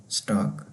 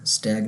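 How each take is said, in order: First: "स्टाग" with a long open aa, German style; "स्टाग" with a broad German aa; correct German pronunciation. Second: "स्टैग" with a flat English a as in stag; "स्टैग" mispronounced like English stag; wrong pronunciation. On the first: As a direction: say "स्टाग" the right way, aa as in father. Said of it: "ये स्टाग होगा". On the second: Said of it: "स्टैग नहीं होगा". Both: Shown as a demonstration.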